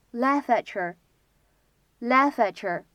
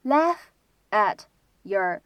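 First: "laugh at your" run together, t and y merging into ch; linked, assimilated sounds. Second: "laugh", "at", "your" each said alone with a pause; separate words. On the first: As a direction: say "laugh at your" as one unit, like "laf-atcher". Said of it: "可以有一个连读". ("laugh at your"连读，t和y同化成ch音) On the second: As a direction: say "laugh at your" unlinked, word by word. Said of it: "这样的三个单词呢". ("laugh at your"三个词分开读，不连读) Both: Shown as a demonstration.

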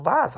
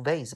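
First: "vase" as vayz; second pronunciation of vase. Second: "vase" as vahz, open ah; first pronunciation of vase. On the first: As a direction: give "vase" the ay of day. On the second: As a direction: give "vase" the long ah of father. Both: Shown as a demonstration. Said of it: "这个词读vase还是读vase".

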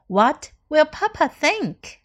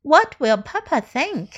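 First: Slow model read. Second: Said in the usual way. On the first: Shown as a demonstration. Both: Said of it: "teacher repeats model sentences".

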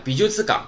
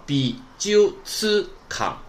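First: Said in the usual way. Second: 美術館 very slowly, bi-ju-tsu-kan in separate pieces; slow teaching breakdown of 美術館; syllable by syllable. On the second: Shown as a demonstration. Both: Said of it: "连起来".

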